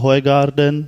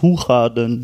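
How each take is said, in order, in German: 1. Der Name wird genauso ausgesprochen, wie er geschrieben wird. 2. Der Name wird auf Niederländisch ausgesprochen. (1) "wie Idiot, wie man es schreibt" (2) "es ist nicht so ausgesprochen, es ist Hoegaarden oder so"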